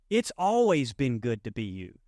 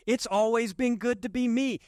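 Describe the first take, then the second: First: Sermon cadence with weight on always; stress on always. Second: Me lifted high and stressed; preacher lifting me higher, steady volume. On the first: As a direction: lean on always, falling at the end. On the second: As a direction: push the word me up high. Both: Shown as a demonstration.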